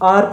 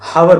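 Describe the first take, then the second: First: The word begins directly with a vowel sound. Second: The word begins with an audible h sound. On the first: The speaker calls it right. "वो आर pronounce होता है, हार pronounce नहीं होता" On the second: The speaker calls it wrong. "हावर बोलोगे, ... गलत कर दोगे"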